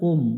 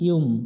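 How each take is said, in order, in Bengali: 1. সিলেবলটি সরাসরি একটি স্বরবর্ণ দিয়ে শুরু হয়। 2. সিলেবলটি 'y' ধ্বনি দিয়ে শুরু হয়। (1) "এখানে অনেকজনে ভুল করে উম, উম পড়া যাবে না" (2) "ইয়া মিম পেশ ইউম"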